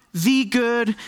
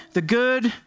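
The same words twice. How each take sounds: First: "the" said as "thee", stressed; emphatic THE. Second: Said in the usual way. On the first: Shown as a demonstration. Preacher naming God as the one good, "the" stressed as thee. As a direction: lean on "the", pronouncing it thee. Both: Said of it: "and capitalize the good".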